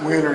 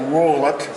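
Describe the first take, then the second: First: The name ends without a t sound. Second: The name ends with a t sound. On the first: This is how the family says the name. "we always pronounce it Whaler" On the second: This is not how the family says the name. "instead of Wollert"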